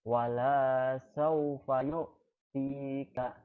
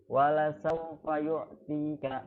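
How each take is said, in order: First: The vowel in la is long. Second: The vowel in la is short. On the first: The Lord will not give you His gift. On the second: The Lord will surely give you His gift.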